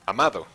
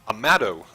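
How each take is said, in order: First: The name is said with Spanish sounds. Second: The name is said with English sounds.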